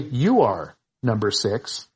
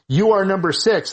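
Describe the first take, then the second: First: There is a pause after "You are." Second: It is said as one unbroken phrase.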